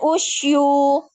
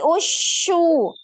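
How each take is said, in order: First: A y glide follows the sh sound. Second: No y glide follows the sh sound. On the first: The speaker calls it wrong. "Jangan usyu" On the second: The speaker calls it right. "tapi usyu"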